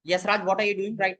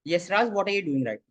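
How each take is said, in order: First: It is said in a raised, sharp voice. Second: It is said in a normal, even voice. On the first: It points out a mistake he is making. "High tone में बोला" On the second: It is a plain question about what he is doing. "Normal tone में मैंने कहा"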